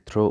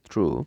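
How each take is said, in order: First: The word ends with an 'oh' vowel. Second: The word ends with an 'oo' vowel. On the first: The speaker calls it wrong. "অনেকে এটাকে থ্রো উচ্চারণ করে" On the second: The speaker calls it right. "উচ্চারণটা হবে থ্রু"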